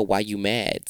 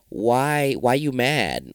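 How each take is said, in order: First: Said in the usual way. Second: Mock challenge. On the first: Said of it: "that's what I really wanna know". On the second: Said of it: "And I said to myself".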